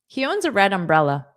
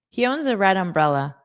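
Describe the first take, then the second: The two takes are said the same way.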